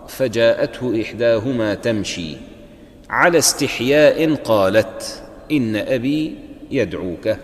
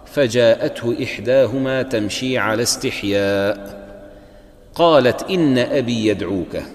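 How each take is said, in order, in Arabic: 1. هناك وقفة بعد 'tamshi'، قبل 'ala'. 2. هناك وقفة بعد 'istihya'، قبل 'qalat'. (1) "وبعضهم يقرأ" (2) "هنا الوقف يختلف، بعضهم يقرأ"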